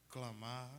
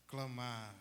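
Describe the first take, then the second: No difference in how they are said.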